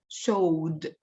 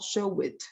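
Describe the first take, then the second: First: The ending is a single consonant sound. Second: The ending is an extra syllable. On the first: The speaker calls it right. "It's showed" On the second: The speaker calls it wrong. "It's not show it"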